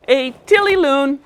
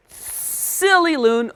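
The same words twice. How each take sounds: First: "tilly" with a T. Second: "Silly" stretched with a clear S; slow correct S. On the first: Real, not acted. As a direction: slip into a T sound. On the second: Shown as a demonstration. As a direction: hold the S in "Silly".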